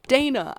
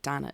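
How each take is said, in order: First: The name is said the American way. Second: The name is said in a non-American way. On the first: The speaker calls it right. "Stupid motherfucking American pronunciations of fucking names" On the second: The speaker calls it wrong. "Fuck! Dana! I meant Dana!"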